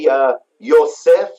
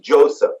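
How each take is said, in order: First: It begins with a y sound and ends in f. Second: It begins with a j sound and ends in f. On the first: "In Hebrew, we say Yosef" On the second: "In English, it's Joseph"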